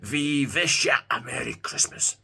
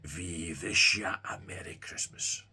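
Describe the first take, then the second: First: It is said loudly in a menacing, demonic voice. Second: It is said quietly, as if from far away. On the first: The voice grows threatening. "The voice becomes louder now, more demonic sounding" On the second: The voice seems distant. "a distant German sounding voice"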